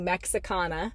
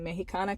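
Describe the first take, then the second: First: The word is pronounced with English sounds. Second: The word is pronounced with Spanish sounds. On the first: "for the English speakers" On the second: "that's how you say it in Spanish"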